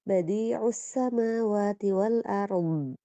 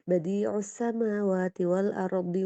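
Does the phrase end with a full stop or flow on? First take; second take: stopped; flows on. First: It stops on the final consonant, vowelless. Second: It flows on with a short i vowel. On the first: "hati-hati juga masih di makhraj dhad ketika waqaf" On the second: "Kalau mau lebih aman, lanjutkan aja lebih ringan"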